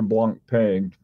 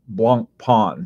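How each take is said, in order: First: The second syllable rhymes with English 'pain'. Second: The second syllable sounds like 'pon'. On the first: The speaker calls it wrong. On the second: The speaker calls it right.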